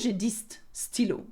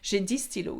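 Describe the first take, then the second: First: The final consonant of dix is pronounced. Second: The final consonant of dix is silent. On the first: The speaker calls it wrong. "You could say j'ai dix stylos, but it doesn't sound right" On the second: The speaker calls it right. "we don't pronounce it"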